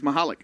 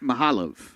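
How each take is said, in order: First: The name ends with a K sound. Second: The name ends with a V sound. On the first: The speaker calls it right. "she says Mahalik" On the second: The speaker calls it wrong. "we've been struggling all tournament long with"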